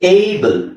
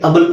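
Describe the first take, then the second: First: The word begins with an 'ay' sound. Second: The word begins with a short 'a' sound. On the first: The speaker calls it right. "ಇಲ್ಲಿ ನಾವು ಎ ಅಂತ ಹೇಳ್ಬೇಕು" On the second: The speaker calls it wrong. "ಅಬಲ್ ಅಂತ ಹೇಳಕ್ಕಾಗಲ್ಲ"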